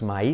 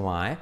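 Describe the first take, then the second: First: MY ending in a clear "ee"; wrong MY. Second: MY as one glide, "mae"; correct MY. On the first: Teacher recalling the mistake, MY mispronounced "ma-i". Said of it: "lo dicho no es my". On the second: Teacher correcting the vowel, MY pronounced "mae". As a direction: say MY smoothly with an "ae" ending. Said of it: "sino my". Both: Shown as a demonstration.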